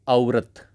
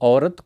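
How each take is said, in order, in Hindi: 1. पहला स्वर दो अलग स्वरों में बँट जाता है। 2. पहला स्वर एक ही सरकती ध्वनि है।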